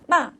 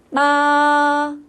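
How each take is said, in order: First: The pitch falls sharply from high to low. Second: The pitch stays high and level. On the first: "높은 솔에서 도로 떨어지는 거죠" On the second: "일성은 어떻게 하자고요? 솔솔"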